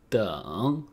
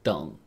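First: The word is said slowly with a full tone. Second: The word is said quickly with a clipped tone. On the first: "pronounced in the third tone" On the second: "When pronounced quickly"

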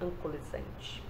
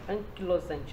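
First: The middle of the word sounds like 'co-li'. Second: The middle of the word sounds like 'kee-lo'. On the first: The speaker calls it wrong. "não ancolizante" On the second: The speaker calls it right. "que é espondilite anquilosante"

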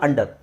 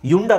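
First: The word begins with an 'ah' vowel sound. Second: The word begins with a 'yu' sound. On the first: The speaker calls it right. "ಆ ತಾನೇ ಬರೋದು" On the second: The speaker calls it wrong. "ಇದು ಯುಂಡರ್ ಆಗಬೇಕು"

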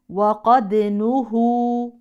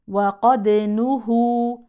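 The two takes are said the same way.

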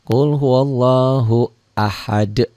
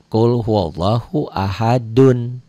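First: The last word stops on a bare final d. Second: The last word ends with a full 'dun' syllable. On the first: The reading pauses at the end of the word. "Apabila berhenti membacanya, berarti berhenti membacanya seperti ada sukun" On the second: The reading carries on without stopping. "Dal ini"

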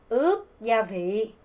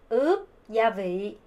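Both takes have the same delivery.

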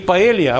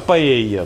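First: An L sound is pronounced before the final vowel. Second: The L sound is dropped before the final vowel. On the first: The speaker calls it wrong. "Не «Паэлья»" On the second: The speaker calls it right. "в таких вот произношениях букву «Л» проглатывают"

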